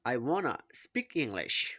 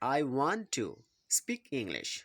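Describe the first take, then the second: First: 'Want to' is run together as 'wanna'. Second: 'Want to' is said as two full words.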